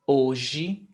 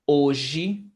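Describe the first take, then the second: Both takes have the same delivery.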